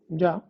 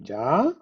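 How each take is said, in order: First: It is said in a calm, accepting way. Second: It is said in an impatient, questioning way. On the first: The listener accepts the statement. "okay, fine" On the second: The listener is surprised it already happened. "already? ... It could denote impatience here"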